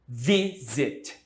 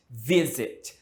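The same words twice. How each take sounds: First: "Visit" in two separate beats, VI then zit; stress on first syllable, split. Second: "Visit" joined up, VI stronger, zit falling away; stress on first syllable. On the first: Teacher showing students the stress, "Visit" split by syllable. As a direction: break "Visit" apart, leaning on VI. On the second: Teacher repeating the example for students, "Visit" joined, first-syllable stress. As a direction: say "Visit" as one word, weight at the start. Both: Shown as a demonstration. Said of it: "a tônica está no início de novo".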